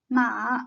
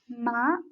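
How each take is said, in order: First: The pitch dips low then rises again. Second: The pitch rises from middle to high. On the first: "The third tone is a dipping one" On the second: "The second tone is a rising tone"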